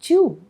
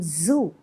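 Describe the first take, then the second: First: The word begins with a j sound. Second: The word begins with a buzzing z sound. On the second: "have a problem in pronouncing zoo"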